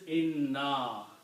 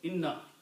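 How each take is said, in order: First: The final vowel is stretched long. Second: The final vowel is said short. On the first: "Here you stretch a little bit" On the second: "here I have to pronounce it short"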